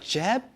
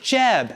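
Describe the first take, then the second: First: It is said as a question, rising. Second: It is said as an exclamation, falling.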